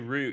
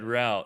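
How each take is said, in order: First: It is said with a British accent. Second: It is said with an American accent.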